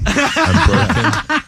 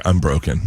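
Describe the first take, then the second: First: High, slow, drawn-out mock lament; mock anguished wail. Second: Said in the usual way. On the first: To Elliot about the crying runner, hammed-up slow wail. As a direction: stretch it out like a hammed-up breakdown. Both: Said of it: "I was like".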